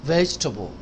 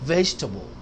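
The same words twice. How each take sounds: The two takes are said the same way.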